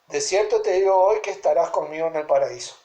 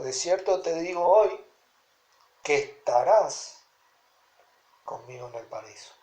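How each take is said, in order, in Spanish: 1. La oración sigue sin ninguna pausa. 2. La oración tiene una pausa dentro. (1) "no le metió coma ni nada" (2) "Ahora yo le pongo una coma y le digo"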